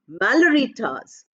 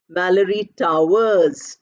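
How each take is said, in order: First: Towers is unstressed and shortened to one syllable. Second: Towers is stressed and said in full. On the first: The speaker calls it right. "we don't stress the second part" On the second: The speaker calls it wrong. "Towers I stressed. That is why I gave full pronunciation"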